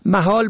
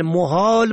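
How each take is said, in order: First: محال said "mahal"; fatha on first. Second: محال said "mohal"; rounded o after m in محال; zamma on first. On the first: Teacher shows محال for "impossible", pronounced mahal. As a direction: open a after m in محال. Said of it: "به فتح اول". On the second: Teacher shows محال for "places", pronounced mohal. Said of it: "به ضم اول". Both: Shown as a demonstration.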